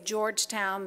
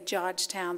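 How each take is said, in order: First: It is said with the R sounds pronounced. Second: It is said with the R sounds dropped.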